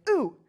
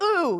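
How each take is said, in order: First: Said in the usual way. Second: High, loud "ooh" of disapproval; mock aggressive ooh. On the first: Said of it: "like, an aggressive reaction". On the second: Woman mad at comic in the restroom, mock aggressive. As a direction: jab it out aggressively.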